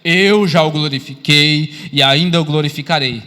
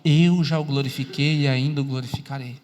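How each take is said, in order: First: Loud, slow, lower-pitched proclamation; God's voice from heaven. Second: Low-pitched, measured voice of God; clear voice. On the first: God answers Jesus from heaven, loud solemn proclamation. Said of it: "Deus falando agora do céu". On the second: God's words passed on to others, clear low voice. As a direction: relay it low and clearly, without booming. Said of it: "vão ouvir uma voz clara". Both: Acted.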